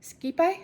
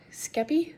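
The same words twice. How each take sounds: First: Skepi said as SKEE-pie, questioning; alternative pronunciation. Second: Skepi said as SKEP-ee; unsure pronunciation. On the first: Second guess at a name, higher questioning SKEE-pie for Skepi. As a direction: try Skepi with long ee, ending like pie. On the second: Unsure of a podcaster's name, tentative Skepi as SKEP-ee. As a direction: try Skepi with a short e, ending in ee. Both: Shown as a demonstration. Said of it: "I don't know".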